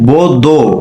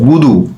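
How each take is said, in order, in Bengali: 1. উচ্চারণ হয় 'o' স্বরে। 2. উচ্চারণ হয় 'u' স্বরে। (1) "বুদু বলতে গিয়ে বো দো, দো যেন না হয়" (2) "দু দু বুদু"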